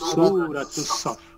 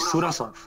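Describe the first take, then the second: First: The 't' of the first word is pronounced and linked. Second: The first word ends without the 't' sound. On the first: The speaker calls it right. "বললাম সূরাতুস সাফ" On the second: The speaker calls it wrong. "আমি বলি নাই সূরা সাফ"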